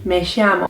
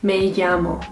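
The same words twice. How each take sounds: First: The double L sounds like sh. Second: The double L sounds like a y. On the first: "in Argentina, it's pronounced more of a sh sound" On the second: "it's gonna be pronounced as like a Y sound"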